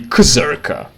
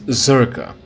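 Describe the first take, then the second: First: The name begins with a K sound. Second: The name begins without a K sound. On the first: "it should be Kzerka, which is even worse to pronounce" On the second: "they pronounce it Zerka, as if C is pronounced like C as opposed to K"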